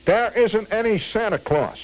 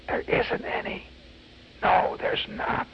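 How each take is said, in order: First: High-pitched mock-bratty announcement; taunting proclamation. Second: Sly stage whisper. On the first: Boy's taunting quote in poem. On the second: Acted. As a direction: whisper it low, like a secret to a small child. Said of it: "whispering low to every tot".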